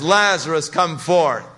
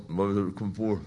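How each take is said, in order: First: Loud, higher commanding call; a loud command to the tomb. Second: Softer, mumbled under the breath; a low mumble, not a command. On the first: Acted. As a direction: call the dead man out by name. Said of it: "In a loud voice, he says". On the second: Shown as a demonstration. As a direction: mumble it like a quiet incantation. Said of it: "Jesus didn't just sort of mumble".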